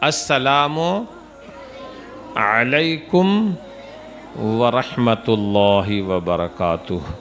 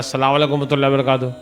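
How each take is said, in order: First: The greeting is said slowly and with calm clarity. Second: The greeting is rushed quickly with slurred words. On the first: The greeting is given sincerely and with care. The speaker calls it right. "निहायत इत्मीनान से" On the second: The greeting is done only as a hurried formality. The speaker calls it wrong. "इसको भी फास्ट कर देते हैं"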